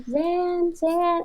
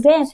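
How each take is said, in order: First: High, soft call; nice, patient mom. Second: Imitated fed-up mother's call; mildly cross mock call; mom getting mad. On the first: Retold or imitated. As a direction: imitate a mother calling sweetly. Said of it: "your mom will be so nice". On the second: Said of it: "she starts getting mad".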